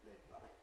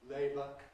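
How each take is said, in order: First: The B is voiceless between the vowels. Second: The B is voiced throughout between the vowels. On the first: The speaker calls it wrong. "rather than labour" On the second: The speaker calls it right. "should be voiced throughout"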